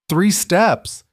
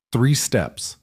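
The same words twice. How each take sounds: First: Joyful cry. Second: Said in the usual way. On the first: A narrator's reading. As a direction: shout it out in delight. Husband cheers her first steps.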